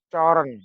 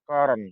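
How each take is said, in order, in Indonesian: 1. Kata itu dimulai dengan bunyi ch. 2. Kata itu dimulai dengan bunyi k. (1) "Tulisannya coren" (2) "Bacaan yang benar adalah koren"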